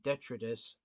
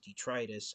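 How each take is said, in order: First: The start sounds like the start of 'detrimental'. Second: The start sounds unlike the start of 'detrimental'. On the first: The speaker calls it wrong. "fans had incorrectly been calling him Detritus. That's because it, his name name looks like it's spelled out like the, the word detrimental" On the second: The speaker calls it right. "the correct way to pronounce his name is Detritus"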